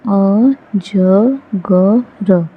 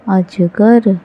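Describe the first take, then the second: First: अजगर split into slow syllables अ-ज-ग-र; spelled out slowly. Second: Said in the usual way. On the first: Shown as a demonstration. Teacher sounding out अजगर slowly for beginning readers. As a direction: sound out अजगर one syllable at a time, drawn out. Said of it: "syllable-by-syllable then whole". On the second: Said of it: "whole word after sounding out".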